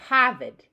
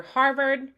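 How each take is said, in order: First: "Harvard" with both R's dropped; loud non-rhotic "Harvard", Boston style. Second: Said in the usual way. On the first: Shown as a demonstration. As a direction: say "Harvard" as Hah-vid. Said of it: "Some other people might say". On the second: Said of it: "so you might hear Harvard".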